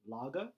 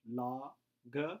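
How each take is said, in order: First: The two syllables run together without a pause. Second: The two syllables are separated by a pause. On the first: "said pretty quickly together" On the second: "let's break it into pieces"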